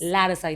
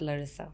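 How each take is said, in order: First: The first vowel is said with an open mouth. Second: The first vowel is said with a closed mouth. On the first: The speaker calls it right. "like you open your mouth to say it" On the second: The speaker calls it wrong. "It's not Larissa"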